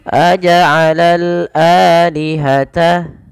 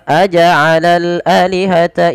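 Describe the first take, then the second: First: The first vowel of alihata is long. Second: The first vowel of alihata is short. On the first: The speaker calls it right. "tapi panjang dulu" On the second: The speaker calls it wrong. "Maka tidak dibaca aja'alal alihata ilah, tapi panjang dulu"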